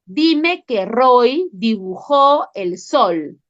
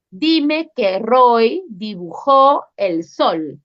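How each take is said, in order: First: Slow, leaning on "dime"; slow teacher prompt with weight on "dime"; stress on dime. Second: Slow, leaning on "dibujó"; slow teacher prompt with weight on "dibujó"; stress on dibujó. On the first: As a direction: drill it slowly, hitting "dime". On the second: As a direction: drill it slowly, hitting "dibujó". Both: Shown as a demonstration.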